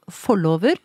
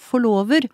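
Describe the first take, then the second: First: The stress is on the first syllable. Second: The stress is on the second syllable. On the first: The speaker calls it right. "med trykket på den måten som jeg sier det nå" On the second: The speaker calls it wrong. "utrolig mange som uttaler dette som forlover"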